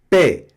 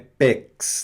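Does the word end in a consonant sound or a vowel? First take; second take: vowel; consonant. First: The word ends on the vowel, x silent. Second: The word ends with a pronounced x sound. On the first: The speaker calls it right. "É pé, só isso" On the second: The speaker calls it wrong. "Esse X não pronuncia, hein? Não é pex"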